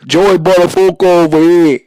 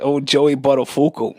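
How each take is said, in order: First: Loud schoolyard New York catchphrase; New York accent impression. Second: Said in the usual way. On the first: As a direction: shout it like kids mocking in the hallway. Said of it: "run around school and say".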